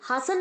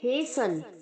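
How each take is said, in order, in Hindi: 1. पहला स्वर 'ah' है और t साइलेंट है। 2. पहला स्वर 'ay' है और t साइलेंट है। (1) "हासन नहीं कहेंगे" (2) "हम कहेंगे हेसन"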